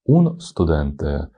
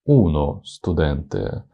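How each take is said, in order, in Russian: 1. Артикль сразу переходит в скопление согласных. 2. Гласный отделяет артикль от скопления согласных. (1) "Как-то язык заплетается, вот горло сдавливает" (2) "гораздо плавнее"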